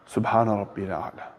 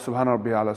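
First: The phrase is said slowly and calmly. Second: The phrase is said quickly and rushed. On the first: The prayer is said with peace and attention. The speaker calls it right. "slow that down" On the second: The prayer is being rushed through. The speaker calls it wrong. "instead of saying"

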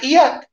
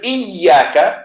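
First: The y sound is short and single. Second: The y sound is held and doubled. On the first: The sunset is what I worship. The speaker calls it wrong. "I said iyak" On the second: Only you do I worship. The speaker calls it right. "Instead of iyaka"

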